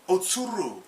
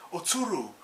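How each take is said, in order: First: Loud urgent call of her name. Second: Calling out. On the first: Afro calling to Okiku, urgent loud call. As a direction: shout her name to warn her. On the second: Afro warning Okiku of an attacker, loud call. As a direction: call her name again, warning. Afro calls out to warn her. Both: Retold or imitated.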